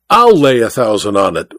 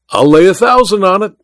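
First: I'LL LAY A THOUSAND ON IT restated evenly, falling at the end; firm reiteration. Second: High, eager wager; pitched-up, challenging exclamation; excited cry. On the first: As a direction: repeat I'LL LAY A THOUSAND ON IT firmly, without raising pitch. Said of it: "reiterated the Tonopah magnate". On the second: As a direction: cry out the bet. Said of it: "cried Welton". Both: A narrator's reading.

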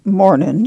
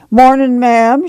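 First: Said in the usual way. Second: Lightly voiced, a touch higher, sing-song greeting; pious woman's greeting. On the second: A narrator's reading. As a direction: greet her sweetly, a pious neighbour.

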